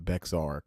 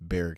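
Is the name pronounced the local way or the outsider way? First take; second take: outsider way; local way. First: The name is pronounced the way outsiders say it. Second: The name is pronounced the way locals say it. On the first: The speaker calls it wrong. "for people that are not from Texas, they're gonna pronounce it" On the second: The speaker calls it right. "but it's"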